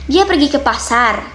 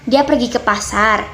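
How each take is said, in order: First: The sentence is said with a higher pitch. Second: The sentence is said with a lower, level pitch. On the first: It asks a question. "dengan nada yang lebih tinggi, intonasi yang lebih uh, berbeda seperti ini" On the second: It gives information as a statement. "itu merupakan kalimat berita ya"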